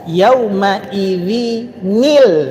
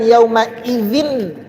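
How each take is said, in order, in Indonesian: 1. Kata ini berakhir disambung dengan bunyi tambahan '-il'. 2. Kata ini berakhir dengan 'n' biasa tanpa sambungan. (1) "dibaca ila rabbika yauma idzinil" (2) "bukan yauma idzin masaq"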